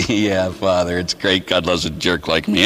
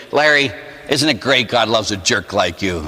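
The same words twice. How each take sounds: First: Low, resigned mock reply; resigned agreement. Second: Said in the usual way. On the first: His sheepish reply to the director.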